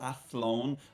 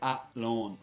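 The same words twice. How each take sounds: First: The th sound is clearly pronounced. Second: The th sound is left out entirely. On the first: The speaker calls it right. "there's a Athlone" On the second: The speaker calls it wrong. "I said Athlone. I missed the T H altogether"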